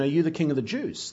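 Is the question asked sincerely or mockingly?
sincerely. It is asked as a simple, sincere question.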